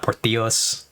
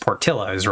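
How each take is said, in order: First: The double L is sounded as a Y. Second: The double L is sounded as an L. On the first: The speaker calls it wrong. "It's not Portillos, which is again what my brain wants to do" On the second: The speaker calls it right. "it's just Portillos, right?"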